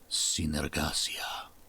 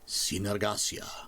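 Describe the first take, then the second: First: It is said in a soft, breathy voice. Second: It is said in a normal voice.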